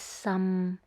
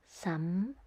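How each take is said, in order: First: It is said in the sixth tone. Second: It is said in the fifth tone. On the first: It means very. "The sixth tone is some" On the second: It is not a word. "in this fifth tone, but there is the sound some"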